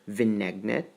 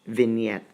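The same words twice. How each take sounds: First: The G sound is pronounced in the word. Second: The G is silent in the word. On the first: The speaker calls it wrong. "Dili vignette or vignette" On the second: The speaker calls it right. "That's vignette, silent G"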